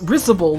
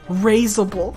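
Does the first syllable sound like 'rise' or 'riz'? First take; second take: riz; rise. First: The first syllable sounds like 'riz'. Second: The first syllable sounds like 'rise'. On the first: The speaker calls it right. "It's risible, like I said" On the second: The speaker calls it wrong. "It's like getting a rise out of you"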